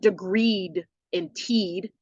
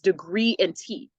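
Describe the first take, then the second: First: Both words end with a hard D sound. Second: Both words end in a vowel, no D. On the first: The speaker calls it wrong. "It's not degreed and teed" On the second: The speaker calls it right. "It's degree and T"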